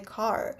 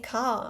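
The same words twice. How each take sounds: First: The word is said in a non-British accent. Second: The word is said in a British accent. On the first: This is the target accent the speaker must train for. "I don't want to say car, but I need to do it" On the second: This is the speaker's natural way of saying it. "my natural accent in English is British English, so for me it's kind of hard to retrain my mouth because I want to say"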